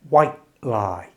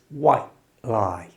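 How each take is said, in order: First: The final t in white is a glottal stop. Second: The final t in white is a glottal stop.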